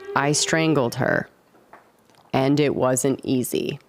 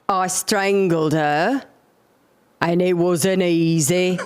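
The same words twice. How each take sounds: First: It is said in the speaker's normal accent. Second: It is said in a put-on foreign accent.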